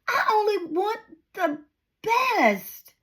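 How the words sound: It is said in an encouraging, motivational tone.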